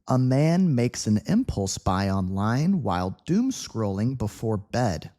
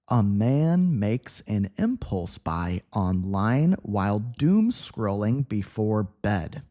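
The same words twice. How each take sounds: First: The sentence is read at medium speed. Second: The sentence is read slowly. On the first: "medium speed" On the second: "let's begin level two with a slow read"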